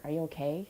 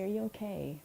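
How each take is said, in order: First: "Are you okay?" rising at the end; "Are you okay?" asked with an upward tune; rising question. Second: Worried falling "Are you okay?"; "Are you okay?" with the weight on "you", falling at the end; concerned. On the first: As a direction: lift "okay" into a light question. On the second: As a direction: ask gently, pitch dropping on "okay". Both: Shown as a demonstration.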